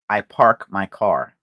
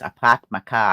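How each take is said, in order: First: The R sounds are clearly pronounced. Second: The R sounds are dropped.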